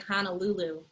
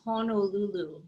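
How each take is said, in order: First: The first syllables sound like 'hana'. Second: The first syllables sound like 'hono'. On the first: The speaker calls it wrong. "I'd say Honolulu. There's no H A N A" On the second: The speaker calls it right. "it's actually Honolulu"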